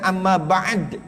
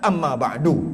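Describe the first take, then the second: First: The final d has no vowel after it. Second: The final d is followed by a u vowel. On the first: "kita kena matikanlah dal tu" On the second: "Cuma kalau fasih"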